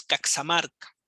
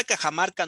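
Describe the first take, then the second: First: Caxamarca said as the correct original name, marked by its x spelling. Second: Cajamarca with a Spanish jota, the usual way; the wrong name. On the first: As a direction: give Caxamarca as the proper form, set against Cajamarca. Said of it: "su nombre correcto es Caxamarca". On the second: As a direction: say Cajamarca as Spaniards spell it, with a j sound. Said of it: "la palabra Cajamarca no es". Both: Shown as a demonstration.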